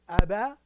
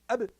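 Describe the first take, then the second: First: The b is followed by a full vowel. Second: The b ends with a brief light bounce. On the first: The speaker calls it wrong. "instead of aba" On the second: The speaker calls it right. "a short touch, ... barely touching and then going back"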